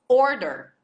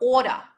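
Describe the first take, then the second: First: It is said in a plain, non-Australian accent. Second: It is said in an Australian accent. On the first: "o pedido, it's order" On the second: "Só que eles falavam ora"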